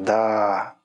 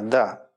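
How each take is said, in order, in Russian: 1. Слово растянуто, протяжно. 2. Слово произнесено ровно, нейтрально. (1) "Можно сказать с потягом, с таким" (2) "Можно сказать нейтрально"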